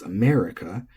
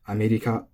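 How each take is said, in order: First: "America" in plain English; English stress; English pronunciation. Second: "America" as Japanese amerika, tapped r, flat; flat pitch; Japanese pronunciation. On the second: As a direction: Japanese katakana reading of "America". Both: Shown as a demonstration. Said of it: "that's how we say it".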